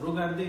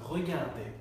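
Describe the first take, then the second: First: The word is said in a simplified, easier way. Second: The word is said with its full French pronunciation. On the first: "এটাকে আমি একটু সিম্পলিফাই করে বলছি" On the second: "আসল উচ্চারণটা হচ্ছে"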